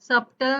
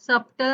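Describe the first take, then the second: First: A b sound is heard before the t. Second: A b sound is heard before the t.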